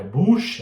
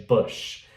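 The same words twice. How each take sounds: First: Louder tense oo in "Bush"; wrong pronunciation. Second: Short, lax vowel in "Bush"; correct pronunciation. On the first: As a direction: say "Bush" like "boosh". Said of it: "não é Bush". ("Bush" com U forte) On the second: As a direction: say "Bush" between oo and oh. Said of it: "é Bush". ("Bush" com U curto) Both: Shown as a demonstration.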